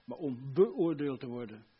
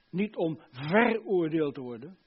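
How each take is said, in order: First: "beoordeeld" with BE set apart and punched; stress on BE. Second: "veroordeeld" with VER stretched and punched; stress on VER. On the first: Preacher contrasts assessed with condemned, stress on BE in "beoordeeld". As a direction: lean on the BE in "beoordeeld". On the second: Preacher contrasts condemned with assessed, stress on VER in "veroordeeld". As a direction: lean slowly on the VER in "veroordeeld". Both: Shown as a demonstration.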